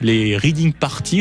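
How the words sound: It is said with a French-style accent. "en bon français"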